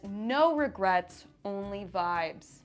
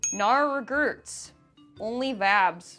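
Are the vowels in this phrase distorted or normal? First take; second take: normal; distorted. First: The vowels are pronounced normally. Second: The vowels are oddly distorted. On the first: It gives the intended wording. The speaker calls it right. "I'll translate that for you all" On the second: It copies a badly misspelled tattoo. The speaker calls it wrong. "apparently I speak stupid"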